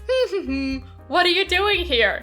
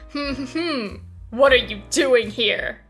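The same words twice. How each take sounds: First: It is said in a warm, friendly tone. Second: It is said in a cold tone.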